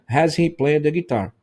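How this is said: It is said with flat, statement-like intonation. The speaker calls it wrong. "a entonação que eu estou dando não é entonação de pergunta"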